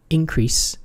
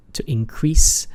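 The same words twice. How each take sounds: First: "increase" as a noun, IN-crease, higher on IN and falling; stress on first syllable. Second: "increase" as a verb, in-CREASE; stress on second syllable. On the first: Teacher shows the noun version, "increase" stressed on its first syllable. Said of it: "I'm pronouncing it differently because the noun version, the stress is in the first". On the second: Teacher shows the verb version, "increase" stressed on its second syllable. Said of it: "is in the second syllable". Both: Shown as a demonstration.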